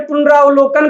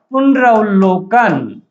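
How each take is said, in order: First: पुनरावलोकन said with a long आ, the common wrong way; wrong pronunciation. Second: पुनरावलोकन said slowly with the ए sound in place of आ; correct pronunciation. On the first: Teacher demonstrating the students' wrong pronunciation, पुनरावलोकन with a long आ. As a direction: show the mistake: पुनरावलोकन with आ. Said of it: "जो कि क्या है? अशुद्ध है।". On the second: Teacher slowly modelling the right way for students, पुनरावलोकन with ए. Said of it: "ए की ध्वनि आएगी।". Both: Shown as a demonstration.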